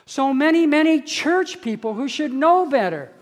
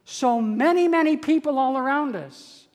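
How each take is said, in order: First: Building emphasis. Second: Said in the usual way. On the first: Real, not acted. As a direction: lean hard into the second so many. Preacher repeating for emphasis.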